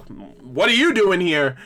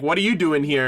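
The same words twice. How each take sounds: First: Slow question, "you" punched and stretched; stress on "you". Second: Said in the usual way. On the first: Retold or imitated. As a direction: throw it back, leaning hard on "you". Question thrown back in retold exchange.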